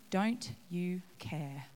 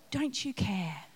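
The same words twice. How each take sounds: First: "Don't you care?" whispered slowly; whispered echo. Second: Said in the usual way. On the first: Acted. Martha repeating her complaint, whispered slowly. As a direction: let it fade to a hushed whisper.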